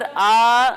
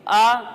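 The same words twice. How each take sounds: First: The vowel is drawn out long. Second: The vowel is short and smooth. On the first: The speaker calls it wrong. "खींचकर आ नहीं पढ़ेंगे" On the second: The speaker calls it right. "बगैर खींचे, बगैर झटका दिए आ पढ़ेंगे"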